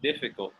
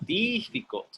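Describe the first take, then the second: First: The first vowel is a short relaxed i. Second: The first vowel is a long smiled ee. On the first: The speaker calls it right. "It's di, di" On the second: The speaker calls it wrong. "They smile"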